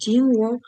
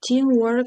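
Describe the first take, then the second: First: Said in the usual way. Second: Teamwork said alone, higher and louder; stress on Teamwork. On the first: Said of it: "Teamwork ist sehr wichtig". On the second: Shown as a demonstration. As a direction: lift and punch Teamwork on its own. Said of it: "Teamwork — це абстрактний іменник".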